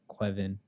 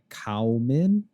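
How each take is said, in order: First: The name begins with a 'kwev' sound. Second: The name begins with a 'cow' sound. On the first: "soft W like Quevin" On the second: "if you were to sort of try and phonetically say it, it would come out like Cowman"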